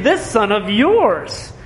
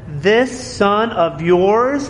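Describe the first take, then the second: First: "this son of yours" slow, falling on "yours"; stress on yours. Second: "This son of yours" drawn out slowly, rising on "This"; stress on this. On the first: Pastor repeating the older son's phrase, falling on "yours". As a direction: drag "this son of yours" to show the distance. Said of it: "It's not "my family". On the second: Pastor quoting the older son, stressing "This" slowly. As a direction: lean on "This" to show the brother's scorn. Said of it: "It's not "my brother". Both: Shown as a demonstration.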